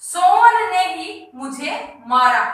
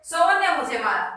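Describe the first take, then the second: First: Slow, with Sohan ने ही leaned on hard; stress on ही. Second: Said in the usual way. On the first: Shown as a demonstration. Teacher contrasting with the neutral sentence, stressing ही. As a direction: press down on "ही" after Sohan ने, slowly. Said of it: "ये ही शब्द है". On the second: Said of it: "तो कोई विशेष जोर नहीं दिया जा रहा".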